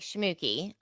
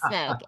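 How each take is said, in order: First: The name is said with two syllables. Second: The name is said with one syllable. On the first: This is how the spelling looks. The speaker calls it wrong. "the way it's spelled looks like Schmooky" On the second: This is how the name is really said. The speaker calls it right. "it's pronounced smoke"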